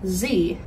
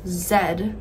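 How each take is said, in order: First: The letter is named the American way. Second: The letter is named the Australian way. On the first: "The letter Z in the alphabet in America would be pronounced as Z" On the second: "In Australia, the letter Z is pronounced as Z"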